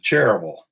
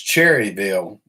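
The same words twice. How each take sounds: First: The 'cherry' part is clipped short. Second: The 'cherry' part is said in full.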